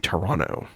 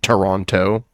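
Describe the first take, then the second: First: The last T is dropped. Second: The last T is clearly pronounced. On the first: The speaker is really from the city. The speaker calls it right. "You don't pronounce the last T" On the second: The speaker is not really from the city. The speaker calls it wrong. "That's how you know somebody's not from Toronto. If they say Toronto"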